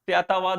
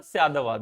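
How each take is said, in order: First: "Syatavad" with a hard t sound; the incorrect "Syatavad", t left unsoftened; unjoined pronunciation. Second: "Syadavad" with t softened to d; flowing "Syadavad", d in place of t; joined-up pronunciation. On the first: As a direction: keep the "ta" unvoiced in "Syatavad". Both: Shown as a demonstration. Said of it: "ta becomes the in the flow".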